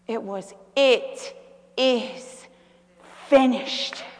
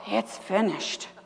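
First: It is said in a strong, triumphant tone. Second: It is said in a weary, defeated tone. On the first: The end is now a new beginning. The speaker calls it right. "It's how you say it" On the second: Everything has ended in defeat. The speaker calls it wrong. "he went, oh"

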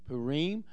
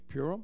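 First: It is said with a Hebrew pronunciation. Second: It is said with a common English pronunciation.

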